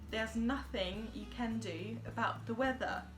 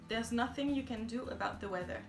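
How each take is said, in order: First: It has an exaggerated, over-articulated English accent. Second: It is said with a slight French accent. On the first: This is a deliberate pronunciation practice exercise. "j'essaierais d'exagérer au maximum" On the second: This is how it sounds in everyday speech without effort. "dans ma vie de tous les jours, j'ai un léger accent français, si je fais pas d'effort"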